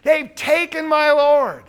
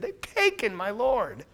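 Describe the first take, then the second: First: Louder, higher, slow cry of loss; loud grieving quote. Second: Said in the usual way. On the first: Retold or imitated. Preacher voices Mary's grief to the gardener, loud and slow. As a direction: wail it out, slowed. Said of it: "she thinks he's a gardener".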